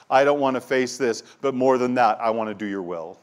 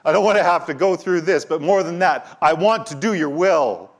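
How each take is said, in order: First: Said in the usual way. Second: Higher, louder anguished plea; pleading cry. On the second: Acted. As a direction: cry out "I don't want to have to go through this" as a desperate prayer. Same prayer repeated with intensity.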